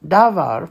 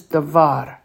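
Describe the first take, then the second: First: Davar with the first syllable punched, DA-var; stress on first syllable. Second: Davar with the accent on the end, da-VAR; stress on second syllable. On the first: Teacher explaining the mistaken reading, stress on first syllable. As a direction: say davar leaning hard on da. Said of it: "would have the accent on the first syllable". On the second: Teacher giving the correct reading, stress on second syllable. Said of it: "This is davar". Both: Shown as a demonstration.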